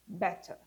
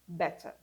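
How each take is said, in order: Both takes have the same delivery.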